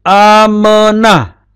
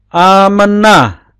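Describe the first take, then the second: The two takes are said the same way.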